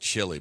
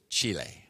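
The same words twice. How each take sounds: First: The vowels are said in an anglicized way. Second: The I and E vowels are sounded out distinctly. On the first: The speaker calls it wrong. "I always say Chile" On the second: The speaker calls it right. "but I guess it's Chile. Get the pronunciation right on the I and the E"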